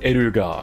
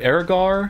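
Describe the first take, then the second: First: The name is said with three syllables, ending in -ga. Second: The name is said with two syllables, ending in -gar. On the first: This is the original Japanese name. "In Japanese, it's Eruga" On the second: This is the English version of the name. "is how we'll go with it for English"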